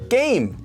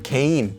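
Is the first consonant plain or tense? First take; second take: tense; plain. First: The first consonant is a tense kk sound. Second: The first consonant is a plain g sound. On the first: The speaker calls it right. "with double letters" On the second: The speaker calls it wrong. "But you don't say game"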